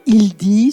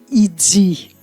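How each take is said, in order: First: The d is a plain stop. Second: The d is released as dz.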